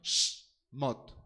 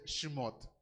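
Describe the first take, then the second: First: The sh runs straight into the m. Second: A vowel is heard between sh and m. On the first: The speaker calls it right. "es más correcto Shmot" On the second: The speaker calls it wrong. "Shemot podría ser correcto"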